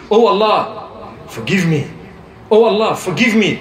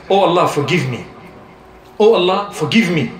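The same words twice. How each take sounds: First: Slow, drawn-out "Oh Allah, forgive me"; said slowly. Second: Said in the usual way. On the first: Shown as a demonstration. Preacher showing listeners how to plead slowly, slow and deliberate. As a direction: stretch each word out, unhurried. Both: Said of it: "Say it slowly".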